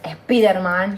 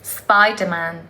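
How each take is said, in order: First: It is said with a Spanish pronunciation. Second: It is said with an English pronunciation. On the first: "en España dice mucho" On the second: "que es"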